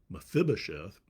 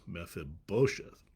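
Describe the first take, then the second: First: The stress is not on the syllable bo. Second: The stress is on the syllable bo. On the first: The speaker calls it wrong. "I used to say Mephibosheth" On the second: The speaker calls it right. "the accent is on the bo"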